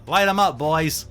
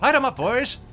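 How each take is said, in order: First: It is said in a Boston accent. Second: It is said in an Irish accent.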